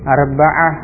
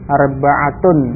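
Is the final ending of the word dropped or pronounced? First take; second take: dropped; pronounced. First: The word ends with a soft -ah and no vowel. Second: The word ends with a full -tun ending. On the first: This is the form used in everyday conversation. "diucapkan dengan mensukun akhirnya" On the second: This is the form used when studying the language. "kalau dibaca lengkap dengan huruf akhirnya"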